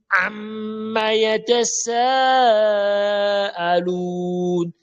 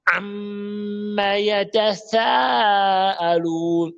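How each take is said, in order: First: Chanted YATASAALUN with a clear hissed s; correct s recitation. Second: Chanted YATASAALUN with a lisped th for the s; wrong th recitation. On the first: Shown as a demonstration. Teacher correcting a spoiled verse, chanted with a true s. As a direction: draw out YATASAALUN very slowly, keeping a sharp s. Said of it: "Aïe, il a gâté". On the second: Retold or imitated. Teacher imitating a faulty reciter, chanted with th for s. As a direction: draw out YATASAALUN slowly, tongue between teeth on the s. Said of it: "Imaginez quelqu'un pas dire".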